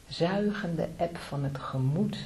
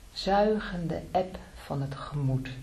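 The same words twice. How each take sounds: The two takes are said the same way.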